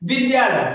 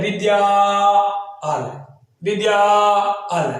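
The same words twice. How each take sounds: First: Said in the usual way. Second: विद्यालय stretched slowly, each syllable drawn out. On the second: Shown as a demonstration. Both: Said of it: "हम लोग क्या कहते हैं".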